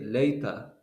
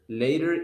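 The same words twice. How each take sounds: First: The final R sound is dropped. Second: The final R sound is pronounced. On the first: "if it is British, they don't say later, they say later" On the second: "later in American"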